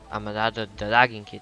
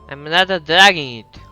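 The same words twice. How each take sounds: First: It is said in an older-sounding voice. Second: It is said in a younger-sounding voice.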